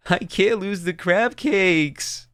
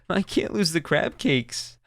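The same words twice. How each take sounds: First: Full sobbing. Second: Put-on slow, higher childlike voice, starting to sob on "lose"; sobbing child. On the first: Acted. Sobbing little girl pleading over her cooler, wailing in tears. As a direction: let it burst out as a child's desperate wail. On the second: Sobbing little girl pleading over her cooler, starting to cry. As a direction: let the little girl's voice crumple as she begins crying. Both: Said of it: "She just started to sob".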